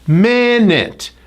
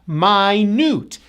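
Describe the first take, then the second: First: The stress is on the first syllable. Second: The stress is on the second syllable. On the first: It means sixty seconds. "Notice the first syllable is stressed" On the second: It means really tiny. "the second syllable is stressed"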